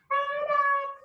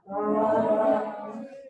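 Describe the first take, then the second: First: It is said in a high, squeaky voice. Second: It is said in a low, deep voice.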